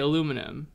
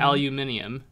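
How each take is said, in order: First: It is said with four syllables, American style. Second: It is said with five syllables, British style. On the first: "definitely say aluminum" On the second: "which is the British pronunciation"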